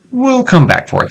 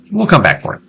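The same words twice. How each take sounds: First: Very high, comic squeak; squeaky high voice. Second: Said in the usual way. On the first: Pretend. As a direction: pitch way up like a cartoon.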